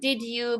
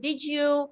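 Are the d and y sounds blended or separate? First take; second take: separate; blended. First: The d and y are said separately. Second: The d and y blend into a j sound. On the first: The speaker calls it wrong. "it's pronounced not not did you" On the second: The speaker calls it right. "D plus Y, it sounds like G"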